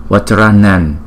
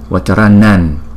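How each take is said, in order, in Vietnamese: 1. Từ kết thúc bằng âm ny, đọc ở ngạc. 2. Từ kết thúc bằng âm ny, đọc ở ngạc.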